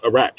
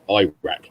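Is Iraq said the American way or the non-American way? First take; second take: non-American; American. First: Iraq is said with a non-American pronunciation. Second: Iraq is said with an American pronunciation. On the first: The speaker calls it right. "it's just Iraq" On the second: The speaker calls it wrong. "It's not Iraq"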